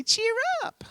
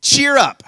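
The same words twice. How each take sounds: First: Tiny, very high sweet voice; soft falsetto sing-out, rising at the end; sweetly. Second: Loud, high call to someone; bright raised shout of encouragement. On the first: Shown as a demonstration. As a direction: squeak it softly like a mouse. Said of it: "say it sweetly". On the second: Acted. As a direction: call it out across a crowd. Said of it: "so they called the blind man".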